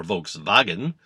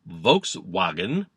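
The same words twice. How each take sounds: First: "Volkswagen" with a V sound for the W; German pronunciation. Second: "Volkswagen" with an English W, slowly; English pronunciation. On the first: Comic correcting the car's name, "Volkswagen" with a German V. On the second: Comic naming the people's car, "Volkswagen" with an English W. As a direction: say "Volkswagen" with "wagen" starting like "wagon". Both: Shown as a demonstration.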